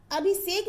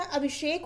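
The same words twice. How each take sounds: First: अभिषेक as abhisek, with s; wrong pronunciation. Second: Said in the usual way. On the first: Shown as a demonstration. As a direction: put s in अभिषेक instead of sh. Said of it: "अभिषेक नहीं होता". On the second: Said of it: "अभिषेक होता है".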